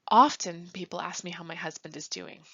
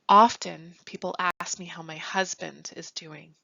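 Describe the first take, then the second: First: The tone is flat and matter-of-fact. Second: The tone carries an emotional, frustrated undertone. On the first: People simply ask about the husband. "in the first way, I'm factually stating" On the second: The speaker needs to talk about how she is doing. "listen to the tone of my voice when I say it"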